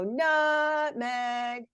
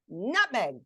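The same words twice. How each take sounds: First: The word is stretched out slowly. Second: The word is said quickly and sharply. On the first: "Calling it to dinner, remember, is where you elongate" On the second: "getting it in trouble, which is saying it fast"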